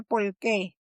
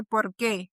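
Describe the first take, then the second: First: Por qué said as "pol qué", R turned to L; Puerto Rican L for R. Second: Said in the usual way. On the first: Shown as a demonstration. Linguist showing the Caribbean L for R in por qué. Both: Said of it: "cree que dice con R".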